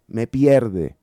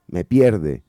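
No difference in how they are said.

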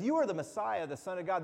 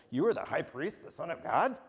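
First: Falling tune, said as a plain statement; flat statement. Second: Tune rises on "God", asked as a question; rising question. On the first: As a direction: end on a firm fall, no question. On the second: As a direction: lift the end of "God" into a question. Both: Shown as a demonstration. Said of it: "It's kinda all your inflection".

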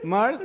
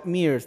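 First: "Mars" with an open "ah" vowel; pronounced with A. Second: "Mears" with a long "ee" vowel; pronounced with EE. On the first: Offering how the brand is said in English, "Mars" with "ah". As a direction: say "Mars" as "mahrs". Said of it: "¿cómo, cómo se pronunciaría?". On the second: Offering the other possible English reading, "Mears" with "ee". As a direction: say "Mears" as "meers". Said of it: "porque es la, la E I". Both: Shown as a demonstration.

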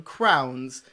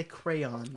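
First: Crayons collapsed into one syllable, crowns; crowns, rhyming with towns, for crayons; childhood crowns. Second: Crayons in two syllables, cray-ons; corrected crayons. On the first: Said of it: "so now I say crayons". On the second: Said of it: "people told me that was wrong". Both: Shown as a demonstration.

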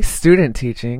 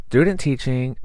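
First: "Student teaching" said louder, with a crisp initial s; corrected slip. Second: "student teaching" with the first s dropped, like "tudent teaching"; slip of the tongue. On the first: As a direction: hit the st of "Student" firmly to correct yourself. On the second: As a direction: fumble the start of "student", losing its s. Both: Real, not acted. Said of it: "What did I just say?".

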